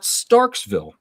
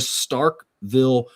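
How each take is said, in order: First: It is said with an s before 'ville'. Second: It is said with no s before 'ville'. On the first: The speaker calls it wrong. "not Starksville. There's a lot of people out there that mispronounce that" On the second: The speaker calls it right. "the Starkville Regional"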